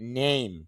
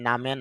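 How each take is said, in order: First: It is said as one syllable, neim. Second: It is said as two syllables, na-me. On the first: The speaker calls it right. "উচ্চারণটা হবে নেম" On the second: The speaker calls it wrong. "নামে না"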